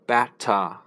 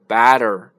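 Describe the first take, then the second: First: The middle consonant is a clear t. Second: The middle consonant sounds like a d. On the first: "英国人是batter" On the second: "美国人发成batter"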